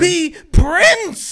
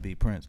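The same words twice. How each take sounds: First: The name is said forcefully, with conviction. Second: The name is said flatly, without force.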